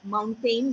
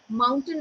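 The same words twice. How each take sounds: First: The stress is on the second syllable. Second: The stress is on the first syllable. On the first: The speaker calls it wrong. "where A I N was given more stress on" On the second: The speaker calls it right. "mountain is a better pronunciation"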